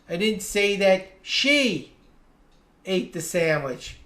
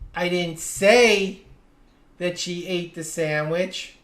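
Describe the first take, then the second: First: The stress falls on the word "she". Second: The stress falls on the word "say". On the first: Someone else ate the sandwich. "I said someone ate the sandwich, but it wasn't her" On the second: It was implied but never actually said. "I may have implied it, but I never actually said it"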